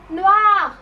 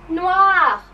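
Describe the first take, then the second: The two takes are said the same way.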